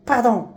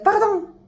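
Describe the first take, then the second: First: Said in the usual way. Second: "باردون" mocked, much higher, clipped and falling; mocking pardon. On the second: Mocking Moroccans who say "باردون", high sneering take. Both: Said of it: "ولا".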